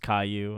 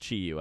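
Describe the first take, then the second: First: The first syllable sounds like 'kai'. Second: The first syllable sounds like 'chee'. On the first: The speaker calls it wrong. "I thought it was Kai-Yu" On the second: The speaker calls it right. "it's Chi-Yu"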